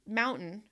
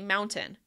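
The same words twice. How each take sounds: First: The t is replaced by a glottal stop. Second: The t is pronounced as a full t. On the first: "sometimes I use them" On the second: "sometimes I don't"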